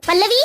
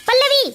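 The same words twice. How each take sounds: First: First sharp summons to a wife; calling out. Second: Higher, insistent second summons; loud calling. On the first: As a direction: call the wife over, firmly. (पत्नी को आवाज़ लगाते हुए) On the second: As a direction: call the wife more urgently, pitch raised. (पत्नी को ज़ोर से पुकारते हुए) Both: Acted. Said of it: "इतने जोर-जोर से आवाज क्यों लगा रहे हो".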